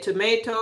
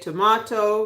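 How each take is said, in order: First: It is said in a non-UK accent. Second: It is said in a UK accent.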